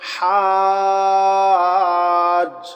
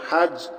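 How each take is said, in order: First: The vowel is held long. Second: The vowel is held short. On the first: "পড়ার সময় হাজ" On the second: "মিলান বানানের সময় হাজিম জবর হাজ"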